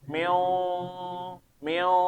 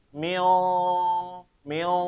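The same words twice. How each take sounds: No difference in how they are said.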